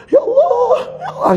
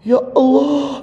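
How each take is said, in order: First: Wailing "Ya Allah" very high, between a laugh and a sob; preacher acts out forcing himself to weep; forced crying. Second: High, hammed-up plea of "Ya Allah"; preacher demos forcing tears in prayer; mock crying prayer. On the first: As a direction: squeeze out a mock sob, half laughing. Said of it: "gitu kan, paksa, paksa, paksa". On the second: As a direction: fake a tearful cry to God, pitched high. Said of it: "Gini aja contohnya". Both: Shown as a demonstration.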